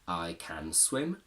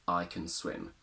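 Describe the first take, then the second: First: 'Can' is said with a full vowel. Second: 'Can' is reduced with a schwa vowel. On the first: The speaker calls it wrong. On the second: The speaker calls it right.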